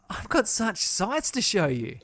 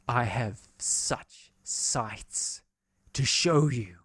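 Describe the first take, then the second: First: It sounds friendly and inviting. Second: It sounds sinister and menacing.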